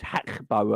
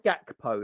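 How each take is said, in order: First: The name begins with a breathy H sound. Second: The name begins with a hard G sound. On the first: This is how Dutch speakers say it. "you're not meant to say the G. It's Hakbo apparently because the Dutch don't say the G" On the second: This is how the speaker chooses to say it. "but I do"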